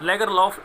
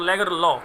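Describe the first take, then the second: First: The name ends with an audible f sound. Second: The name ends without any f sound. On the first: This is how the name is said in India. "लेगर लॉफ Indian accent है" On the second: This is how the name is said in Swedish. "लेगर लॉ एफ इसमें साइलेंट होगा, ये होगा Swedish pronunciation के अकॉर्डिंग"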